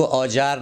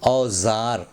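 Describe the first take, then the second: First: औजार with a j sound in the middle; wrong pronunciation. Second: औजार with a buzzing z, "au-zaar"; correct pronunciation. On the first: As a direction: say औजार as "au-jaar", j instead of z. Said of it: "उसको औजार ना बोलें". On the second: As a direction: say औजार with z in place of j. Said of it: "इसका सही तलफ़ुज़ है". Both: Shown as a demonstration.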